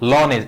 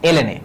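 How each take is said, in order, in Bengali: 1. l n অক্ষর দুটো একটি শব্দ হিসেবে উচ্চারিত হয়। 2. l n অক্ষর দুটো আলাদা আলাদা করে বানান করে বলা হয়। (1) "লন এ অনেকে বলে" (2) "আসল উচ্চারণ হলো এলএন এ"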